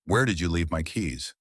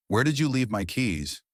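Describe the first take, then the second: First: "Where" stressed, the rest falling. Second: "you" punched high, falling after; stress on you. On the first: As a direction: hit "Where" at the start of the question. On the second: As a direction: lean hard on "you" in the question. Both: Shown as a demonstration. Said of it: "slightly different meaning in those two deliveries".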